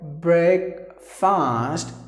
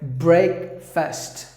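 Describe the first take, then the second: First: The first part sounds like 'brake'. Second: The first part sounds like 'breck'. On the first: The speaker calls it wrong. "not a break" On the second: The speaker calls it right. "just imagine there is I instead of the letter A"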